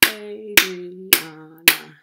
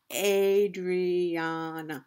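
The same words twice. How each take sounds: First: Adriana slowly in four loud beats, A-dri-a-na; syllable by syllable. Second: Adriana very slow and even, A-dri-a-na; slowly sounded out. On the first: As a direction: punch out each syllable of Adriana. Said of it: "Four syllables in Adriana". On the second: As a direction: stretch the syllables of Adriana smoothly. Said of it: "how many parts a word can be broken into". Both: Shown as a demonstration.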